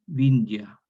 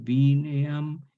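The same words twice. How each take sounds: First: "vinja" with a glide after n, louder; evolved form. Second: "vineam" slowly, bi-ne-am; Latin form. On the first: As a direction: say "vinja" as the changed Romance form. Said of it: "se transforma en diptongo". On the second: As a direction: read "vineam" as the Latin source. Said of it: "en latín vineam". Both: Shown as a demonstration.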